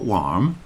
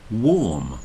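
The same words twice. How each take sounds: First: The vowel sounds like the one in car. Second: The vowel sounds like the one in door. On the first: The speaker calls it wrong. "It's not warm" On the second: The speaker calls it right. "it's warm, and it rhymes with storm"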